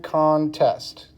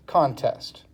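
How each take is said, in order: First: "contest" slowly split as con, test; syllable by syllable. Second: Said in the usual way. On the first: Shown as a demonstration. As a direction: break "contest" into two separate beats. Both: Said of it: "we have one and two syllables".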